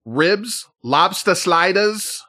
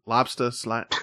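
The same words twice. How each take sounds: First: A put-on Boston accent, higher and slow; terrible Boston accent. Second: Said in the usual way. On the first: Host reading menu items in a bad Boston accent. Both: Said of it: "Hey, that was a terrible accent".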